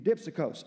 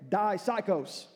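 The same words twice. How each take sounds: First: The word is pronounced in a Greek way. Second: The word is pronounced like English 'psycho'.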